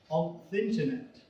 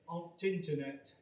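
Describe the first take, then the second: First: The reduced article is a bare th sound. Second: The reduced article is a bare t sound. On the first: The speaker calls it right. "the correct pronunciation would be on thinternet" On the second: The speaker calls it wrong. "I have never heard a northerner saying on tinternet"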